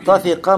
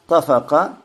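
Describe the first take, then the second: First: The middle vowel is an 'i' sound. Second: The middle vowel is an 'a' sound. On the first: "Можно тафика" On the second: "можно тафака"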